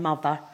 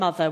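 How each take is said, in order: First: It is said in an estuary accent. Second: It is said in a standard accent. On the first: This is how it will be said in future. "we'll all be saying mother" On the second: This is how it is said now. "instead of saying mother"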